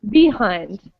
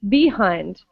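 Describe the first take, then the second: First: The stress is on the first syllable. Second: The same.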